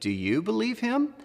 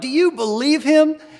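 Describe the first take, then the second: First: The question sounds doubtful and seriously concerned. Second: The question sounds amused and playfully incredulous. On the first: The claim seems too good to be true. "sounded a little too good to be true and I wanted to get someone else's advice" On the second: The person is wild and entertaining. "like he was a crazy guy, you know, the life of the party"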